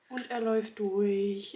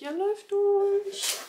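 First: Said in the usual way. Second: High, slow, amazed. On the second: Real, not acted. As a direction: stretch it out in wonder. Repeats in amazement.

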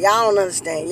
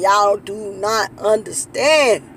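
First: Said in the usual way. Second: "do not" spelled out slowly, each word weighted; slow, deliberate stress on "not"; slow emphatic. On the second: Shown as a demonstration. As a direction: drag out "Y'all do not understand" for emphasis.

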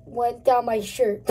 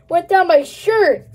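First: Said in the usual way. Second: Louder, disgusted repeat; grossed out. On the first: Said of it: "It went down my sh". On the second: Real, not acted. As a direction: say it with a yuck.

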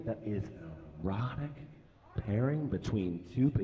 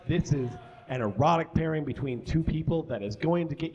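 First: Sultry. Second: Said in the usual way. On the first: Acted. Teasing an erotic story.

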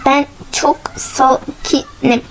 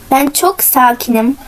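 First: Very slow, words broken apart; calm yourself syllable by syllable, half-whispered; self-calming. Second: Said in the usual way. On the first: Real, not acted. Player telling themselves they are calm, slow and deliberate.

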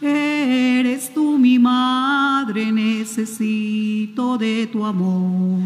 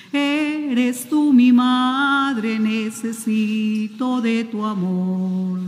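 The two takes are said the same way.

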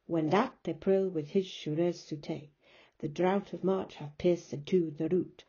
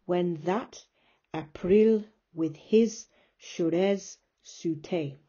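First: Flowing Middle English verse, beat on "that", "his", "March", "root"; iambic verse reading. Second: Slow, loud beats in "When that April with his Shurez Sute"; slow Middle English scansion of "April" and "Shurez Sute", pausing between feet; exaggerated iambic stress. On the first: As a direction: read it through in rhythm, leaning on "that" and "his". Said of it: "my pronunciation's not very good".

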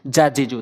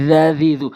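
First: "জা, জি, জু" with a hard plain j; mispronounced Dhal. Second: "জা, জি, জু" with voiced th, as in "this"; tongue tip at front teeth for "জা, জি, জু"; correct Dhal. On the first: Teacher showing the mistake to avoid, plain j sound. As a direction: say "জা, জি, জু" as j, not th. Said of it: "তাহলে হবে না". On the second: Teacher modelling Dhal for learners, voiced th sound. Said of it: "জিহ্বার আগা এবং সামনে দুটি দাঁতের আগা". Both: Shown as a demonstration.

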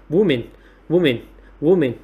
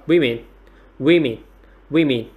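First: WOMAN said "WUU-min", first vowel as in "wood"; singular pronunciation. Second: WOMEN said "WIH-min", first vowel as in "win"; plural pronunciation. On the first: Teacher contrasting the singular, WOMAN pronounced "WUU-min". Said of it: "là chúng ta sẽ có là số ít". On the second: Teacher showing students the plural, WOMEN pronounced "WIH-min". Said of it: "cách đọc số nhiều chúng ta sẽ có đọc là". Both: Shown as a demonstration.

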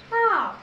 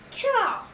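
First: Cow split into a lone k, then ow; sounded out. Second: Said in the usual way. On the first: Shown as a demonstration. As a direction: leave a gap between k and ow in Cow. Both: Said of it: "O W says ow".

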